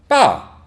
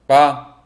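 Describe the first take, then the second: First: The pitch drops sharply downward. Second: The syllable is short and light. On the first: It means the top or chief. "내려 꽂듯이 말씀하시면 됩니다" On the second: It is a particle. "짧고 가볍게"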